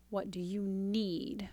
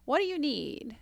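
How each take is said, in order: First: Soft whisper. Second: Said in the usual way. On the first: Shown as a demonstration. Coach whispers the calming question to a partner, softly. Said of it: "stop that pattern and go".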